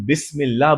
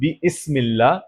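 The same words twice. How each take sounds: First: The glottal stop is dropped, the sounds run together. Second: A glottal stop is pronounced before the 'ism' part. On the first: The speaker calls it right. "इसी वजह से हम बिस्मिल्लाह बोलते हैं" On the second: The speaker calls it wrong. "हम बिस्मिल्लाह नहीं बोलते"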